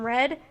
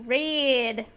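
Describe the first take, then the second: First: It is said short, as one syllable. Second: It is drawn out into three syllables.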